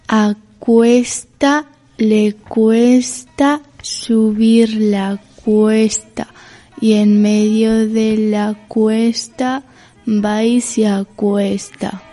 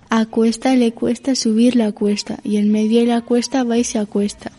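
First: It is said slowly. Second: It is said at normal speed.

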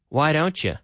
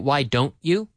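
First: The words are linked, with 'you' reduced to 'ya'. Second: Each word is said separately, without linking. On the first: The speaker calls it right. "Or the you often becomes ya" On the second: The speaker calls it wrong. "We normally don't say"

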